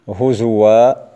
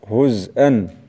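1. يحل صوت الواو محل الهمزة. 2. تبقى الهمزة بعد الزاي الساكنة. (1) "قرأ بإبدال الهمزة في هزوء" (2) "الهمز باقي عندهم لكن بدل من الضم يسكن الحرف"

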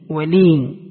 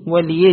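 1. الكلمة تنتهي بياء مد طويلة 'ee'. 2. الكلمة تنتهي بفتحة مضافة 'a'. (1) "بإسكان الياء" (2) "بفتح الياء"

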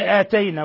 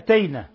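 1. الحركة الأولى طويلة. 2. الحركة الأولى قصيرة. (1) "لا تقول آتينا" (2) "وإنما أتينا"

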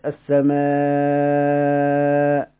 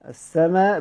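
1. يُمَدّ الحرف الطويل الأخير مدة طويلة. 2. يُمَدّ الحرف الطويل الأخير مدة قصيرة فقط. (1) "بالمد السماء كده من غير همزة" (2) "السماء بالكسر"

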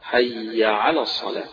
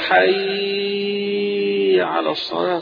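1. تُقال العبارة بطول متوسط. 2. تُمدّ العبارة مدًّا طويلًا جدًا. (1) "لا بد من التشديد" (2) "طويلة أوي"

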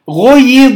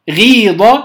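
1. ضمّة قصيرة، ثم كسرة على الياء. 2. ياء مدّية طويلة واحدة بعد الحرف الأول. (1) "ثقيلة في النطق جدا" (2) "فصارت الياء ساكنة وقبلها مكسور فصارت ياء مدية"

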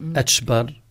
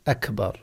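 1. الحرف الساكن في الوسط هو صوت 'ch'. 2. الحرف الساكن في الوسط هو صوت 'k'. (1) "لا يقول أتشبر أتشبر" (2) "ينطق بها بالشكل الصحيح أكبر"

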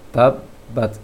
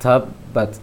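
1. Bunyi t hanya punya hembusan angin yang lemah. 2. Bunyi t punya hembusan angin yang kuat. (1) "baca saja ta secara normal" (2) "Jangan disengaja untuk tiup dengan kuat angin ta"

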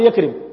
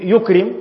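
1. المقطع الأول فيه الحركة a. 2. المقطع الأول فيه الحركة u. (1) "ما يقول يكرم" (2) "بس يقول يكرم"

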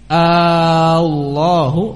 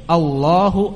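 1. Vokal pertama dipanjangkan. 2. Vokal pertama pendek. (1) "Kalau dipanjangkan Allahu" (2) "jangan dibaca panjang pada pertama kalinya"

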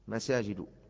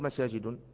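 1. الكلمة تنتهي بدون صوت النون الأخير. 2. الكلمة تنتهي بصوت -ين. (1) "ممنوعة من الصرف" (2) "لا تقل مساجد"

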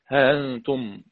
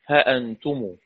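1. الهمزة مُلَيَّنة، تقريبًا تنزلق. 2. الهمزة تُنطق كاملة. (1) "ورش بحذف الألف مع التسهيل" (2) "قنبل بحذف الألف مع التحقيق"

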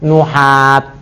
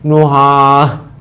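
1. Kata itu berakhir dengan bunyi t. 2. Kata itu berakhir dengan bunyi h. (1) "ketika di waqaf bacanya nuhat" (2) "Jangan bacanya nuhah"

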